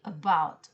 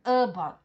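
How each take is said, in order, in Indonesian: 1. Tekanan ada pada suku kata kedua. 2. Tekanan ada pada suku kata pertama. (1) "tapi about, ya. B-nya ditekan" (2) "bukan about"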